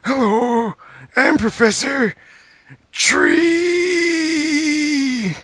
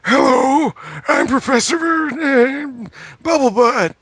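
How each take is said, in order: First: Very high, slow silly professor with a long drawn "Tree". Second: Very high silly cartoon professor. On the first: Acted. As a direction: stretch out "Tree" in a squeaky cartoon voice. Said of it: "the second time he's like". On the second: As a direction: squeak it out like a goofy cartoon professor. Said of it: "The first time he's like".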